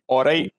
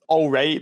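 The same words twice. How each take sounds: First: It is said Scottish-style, starting with 'aw'. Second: It is said with a plain, standard vowel. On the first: "I would type it A-W" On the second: "it's just alright"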